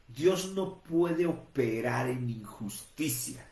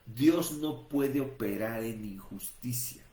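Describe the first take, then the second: First: Dios no puede operar en injusticia, spaced out word by word; slow and deliberate. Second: Dios stressed on the repeat, still slow; emphatic repeat. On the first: Preacher stressing a key truth to listeners, slow and deliberate. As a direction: lay it down slowly for the congregation. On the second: Preacher repeating the point so listeners understand, emphatic. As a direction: drive the point home a second time. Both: Shown as a demonstration. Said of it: "entendamos esto".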